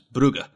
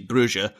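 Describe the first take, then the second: First: The name is said with Dutch pronunciation. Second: The name is said with French pronunciation. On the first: "the Dutch kind of influence would have it as Brugge" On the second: "the French side of pronunciation, which we would say Bruges"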